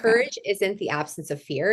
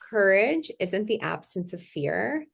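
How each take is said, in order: First: It is said at normal speed. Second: It is said more slowly.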